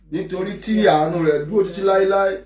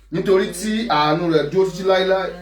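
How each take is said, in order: No difference in how they are said.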